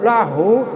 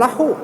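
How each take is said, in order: First: The h is a soft, light breath. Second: The h is harsh and made deep in the throat. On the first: The speaker calls it right. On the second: The speaker calls it wrong.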